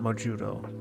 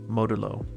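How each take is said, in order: First: The name is said with a J sound. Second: The name is said with a D sound. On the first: The speaker calls it wrong. "it's not Mojudo" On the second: The speaker calls it right. "it is with a D and not a J"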